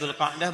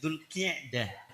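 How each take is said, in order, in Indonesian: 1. Kata kedua diawali dengan huruf vokal 'a'. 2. Kata kedua diawali dengan huruf vokal 'i'. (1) "Ini bukan Dzul Qa'dah" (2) "Qi bukan Qa tapi Qi"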